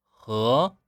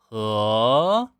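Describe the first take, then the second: First: The end of the syllable is cut short. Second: The end of the syllable is dragged out. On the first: The speaker calls it right. "这样收住" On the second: The speaker calls it wrong. "这样是不对的啊"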